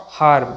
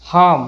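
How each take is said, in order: First: Harm with an audible r before m; sounded r. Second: Harm as "haam"; silent r. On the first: Teacher shows the mistake, r sounded. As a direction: pronounce the r in harm. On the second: Teacher models the correct word, r silent. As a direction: drop the r in Harm. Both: Shown as a demonstration.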